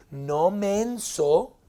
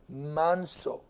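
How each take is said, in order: First: "menso" drawn out slowly and louder; mock emphasis on "menso"; slow stress on menso. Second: Said in the usual way. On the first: Shown as a demonstration. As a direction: stretch out "no menso" to make the joke land. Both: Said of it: "Hay una gran diferencia".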